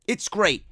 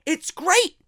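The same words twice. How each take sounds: First: Said in the usual way. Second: Great lifted high with a rising tune; praising wrestlers who cut their own promos, excited; enthusiastic. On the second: Real, not acted. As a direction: sell it with bright enthusiasm.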